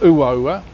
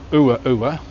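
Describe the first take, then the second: First: The vowels glide together into one sound. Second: The vowels are said as separate syllables. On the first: The speaker calls it right. "the vowels join together" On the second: The speaker calls it wrong. "and not"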